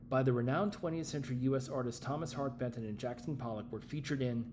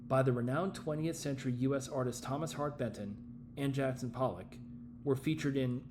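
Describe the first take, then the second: First: It runs on without pausing around the names. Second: It pauses before and after the names. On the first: The speaker calls it right. "the one with no pause" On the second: The speaker calls it wrong. "if you want to put comma before and after"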